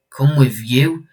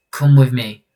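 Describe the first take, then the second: First: "Come with you?" rising at the end as a question; incredulous echo question. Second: "Come with me." falling at the end as an order; terse command. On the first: Replying to the stranger's invitation, questioning echo rising on "you". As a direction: throw "Come with you?" back with a rising tune. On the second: Stranger recruiting a partner, firm order falling on "me". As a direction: state "Come with me." firmly with a falling tune. The invitation before the echo. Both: Acted.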